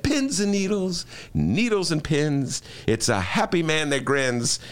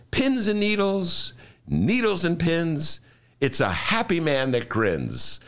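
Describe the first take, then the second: First: Slow, singsong self-soothing chant; calming mantra. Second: Slow, singsong chanted mantra; Jackie Gleason mantra. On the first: Host reciting his calming mantra to himself. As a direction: recite it slowly to calm down. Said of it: "I said". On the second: Imitating Jackie Gleason chanting his calming mantra slowly. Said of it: "And he would say". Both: Retold or imitated.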